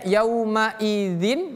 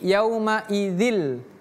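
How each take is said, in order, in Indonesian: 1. Kata ini berakhir dengan bunyi n. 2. Kata ini berakhir dengan bunyi l. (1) "bacanya bukan izin" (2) "menjadi yaumaizil"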